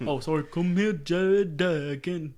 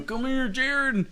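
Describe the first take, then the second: First: Dragged, slow put-on accent on "Jared Duggan"; a retry of the mocking Embiid voice; Joel Embiid impression. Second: Slow, high put-on accent calling Jared; a cheeky accent impersonating the center; Joel Embiid impression. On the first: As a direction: stretch the name in a mock accent. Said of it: "I shouldn't have done that". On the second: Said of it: "that's really bad".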